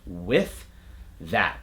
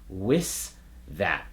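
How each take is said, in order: First: The word with ends in a th sound. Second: The word with ends in an s sound. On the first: The speaker calls it right. "We want a T H sound" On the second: The speaker calls it wrong. "they'll make it an S sound"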